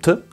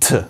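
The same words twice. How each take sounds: First: The t has no puff of breath. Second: The t has a strong puff of breath.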